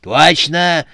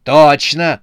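First: Loud, high cantankerous agreement; grumpy exclamation, pitched up; quarrelsome. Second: Very loud, raised-pitch exclamation; forceful one-word yell; shouted. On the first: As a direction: agree like a squabbling granny. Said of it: "сварливо отозвалась Матрёна Фёдоровна". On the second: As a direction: shout in eager agreement. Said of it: "закричал председатель". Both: A narrator's reading.

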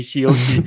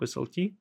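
First: "C L T" spelled out as tse-el-te; says C L T. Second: "S L T" spelled out as es-el-te; says S L T. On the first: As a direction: say "C L T" starting with tse, tse-el-te. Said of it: "раньше я говорил всё время C L T". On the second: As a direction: say "S L T" with an S at the start, es-el-te. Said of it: "почему-то мне всё теперь хочется". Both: Shown as a demonstration.

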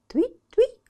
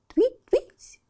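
First: Very high loud chirping; bird chirp. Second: Very high loud chirping call; bird chirp. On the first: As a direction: chirp твить like a swallow. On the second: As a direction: cry твить out like a bird. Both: Acted. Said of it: "крикнула в последний раз ласточка".

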